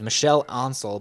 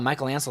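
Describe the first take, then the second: First: The first name is said the French way. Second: The first name is said the English way. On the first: This is the name's original form. "I think his name's Michel Ancel" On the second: This is how Americans say the name. "we pronounce it Michael over here in America"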